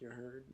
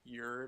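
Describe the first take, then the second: First: The words are said fully as two separate words. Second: The words are squeezed into one short slang form.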